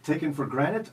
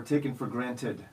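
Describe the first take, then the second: First: "granted" as GRAN-it, T dropped; granted as granite. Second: "granted" as GRAN-tid; T sounded in granted. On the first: Host repeating first choice, "granted" as granite. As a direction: make "granted" sound like "granite". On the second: Host repeating second choice, "granted" with its T. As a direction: keep the middle t in "granted". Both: Shown as a demonstration. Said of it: "who says it that way?".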